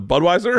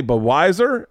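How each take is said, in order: First: Said in the usual way. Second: Budweiser with the first D dropped, "Buh-WISE-er"; mispronounced Budweiser. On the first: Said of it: "instead of Budweiser". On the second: Retold or imitated. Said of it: "fuck up the way he says a word".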